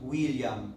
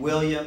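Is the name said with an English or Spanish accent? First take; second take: Spanish; English. First: It is said with a Spanish accent. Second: It is said with an English accent. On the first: "becomes William" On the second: "So the name William"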